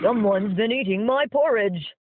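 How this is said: It is said in a growling voice.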